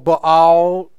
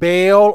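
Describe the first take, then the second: First: The name has a Hebrew pronunciation. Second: The name has an English pronunciation.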